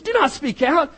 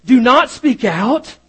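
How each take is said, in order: First: "Do not speak out" in a put-on hushing preacher voice, rising on "not"; mock phony preacher. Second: "Do not speak out" said slowly and louder, leaning on "not"; emphatic quote. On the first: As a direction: mimic the fake preacher's hushing warning. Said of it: "these phony preachers". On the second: Retold or imitated. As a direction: lay down the forbidding words, slow and firm. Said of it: "is what they would say".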